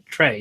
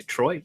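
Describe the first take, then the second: First: "Trey" said as TRAY, rhyming with day, falling; "Trey" with the long ay vowel, settled; corrected name. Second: Put-on "Troy" said as TROY, rhyming with boy, rising; "Troy" with the oy vowel, asked; wrong name, questioning. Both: Shown as a demonstration. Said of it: "I don't know why I said Troy".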